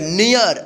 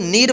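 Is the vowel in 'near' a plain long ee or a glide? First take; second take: glide; long ee. First: The vowel glides from ee toward uh. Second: The vowel is a plain long ee sound. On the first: The speaker calls it right. "नियर इस तरह से पढ़िएगा" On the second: The speaker calls it wrong. "इसको नीर मत पढ़िएगा"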